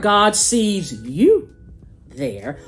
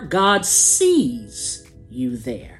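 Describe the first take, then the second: First: The stress falls on the word you. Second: The stress falls on the word sees.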